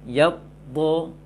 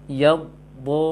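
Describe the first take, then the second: The two takes are said the same way.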